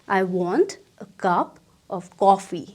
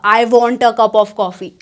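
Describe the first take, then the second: First: The sentence starts low and relaxed. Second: The sentence starts on a high pitch. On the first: The speaker calls it right. "नीचे आ जाएगा" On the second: The speaker calls it wrong. "ऐसे नहीं होगा"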